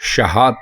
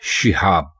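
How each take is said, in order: First: The first vowel is a short a. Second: The first vowel is a short i. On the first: The speaker calls it wrong. "शीन के ऊपर ज़बर डालकर ... जो गलत है" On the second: The speaker calls it right. "शीन के नीचे ज़ेर डालकर ... दुरुस्त होगा"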